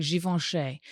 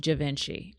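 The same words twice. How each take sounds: First: Givenchy said the French way, zhee-von-shay; Givenchy with zh start, nasal on, ending shay. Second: Givenchy said the English way, soft ch in the middle and ee at the end; Givenchy with a zh-ish start and a chee ending, like English; wrong Givenchy. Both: Retold or imitated. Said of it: "It's not how you say that".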